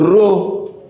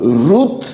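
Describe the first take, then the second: First: The final consonant is dropped entirely. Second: The final consonant is clearly pronounced. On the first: The speaker calls it wrong. "dice Ru" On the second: The speaker calls it right. "ellos no dicen Ruth"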